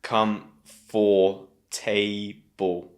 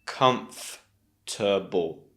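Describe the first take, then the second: First: "Come for table" as four slow separate beats, kum-for-tay-bul; very slow "Come... for... ta... ble"; wrong four sounds. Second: Comfortable slowly as kumf... tuh... bul; slow, separated KUMF-tuh-bul for Comfortable; three sounds. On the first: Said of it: "not to say four sounds". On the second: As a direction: break Comfortable into three beats, no O. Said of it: "It's three sounds". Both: Shown as a demonstration.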